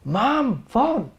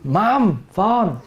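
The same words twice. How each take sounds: First: Raised impatient call. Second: Blunt call to mom. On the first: Impatient child answering the caller, calling mom again with a sharp high phone. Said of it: "they increase their, their answer is". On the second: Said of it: "This is how you always happen in the family". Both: Retold or imitated.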